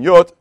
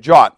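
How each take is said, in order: First: The word begins with a Y sound. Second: The word begins with a J sound. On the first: "instead of it saying yot" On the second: "we don't say the J like a yet in Germanic, we say jot"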